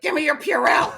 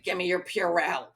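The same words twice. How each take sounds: First: Mock yell, higher and much louder; raised-voice retold demand; urgent demand. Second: Said in the usual way. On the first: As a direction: insist loudly, imitating an impatient friend. Friend repeats her demand more urgently.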